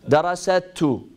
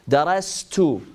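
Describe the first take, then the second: First: An extra a vowel separates s and t. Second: The s runs straight into the t. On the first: The speaker calls it wrong. "Can you say it with the fatha?" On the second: The speaker calls it right. "When you say darastu, there is no fatha"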